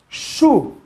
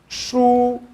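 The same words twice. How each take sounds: First: It is said in the fourth tone. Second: It is said in the first tone. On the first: It means tree. "Se nós colocássemos esse tom aqui no quarto tom" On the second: It means book. "Um outro objeto agora com o primeiro tom"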